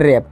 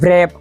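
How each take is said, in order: First: The word begins directly with an r sound. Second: The word begins with a w before the r. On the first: The speaker calls it right. "આરનો જ ઉચ્ચાર કરવામાં આવે છે" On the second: The speaker calls it wrong. "આ રીતે બોલતા નથી"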